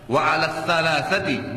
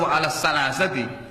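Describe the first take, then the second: First: The consonants are a lisped th sound. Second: The consonants are a plain s sound. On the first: The speaker calls it right. "Alif ba ta tha, anginnya dikeluarkan, lidah ditekan di atas" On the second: The speaker calls it wrong. "bukan wa ala salasati, lain artinya"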